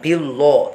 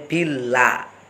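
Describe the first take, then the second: First: The l is heavy with a rounded vowel. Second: The l is light with a clear a vowel. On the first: The speaker calls it wrong. "Jadi bukan billo" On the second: The speaker calls it right. "tapi billah"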